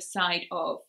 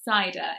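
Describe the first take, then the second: First: The two words are separate with an 'f' sound. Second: The two words blend with no 'f' sound. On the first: "instead of side of" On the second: "cider instead of side of"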